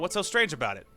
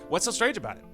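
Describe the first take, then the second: First: It sounds angry and harsh. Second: It sounds surprised and genuinely curious.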